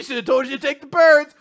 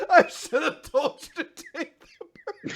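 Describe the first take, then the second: First: Mock shout. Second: Laughing retelling. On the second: Retold or imitated. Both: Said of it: "he says that at the end".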